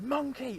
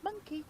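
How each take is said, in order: First: The name is called in a loud, urgent voice. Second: The name is called in a calm, relaxed voice. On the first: There is danger nearby. "if there was a danger there, you'd be going Monkey or shout Monkey" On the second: Everything is normal. "you wouldn't be going Monkey"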